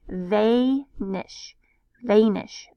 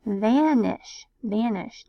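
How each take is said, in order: First: Vanish said as vay-nish with a long A; wrong long A. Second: Vanish with a short A, van-ish. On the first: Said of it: "making this the long A". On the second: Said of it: "sounding this out with short A". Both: Shown as a demonstration.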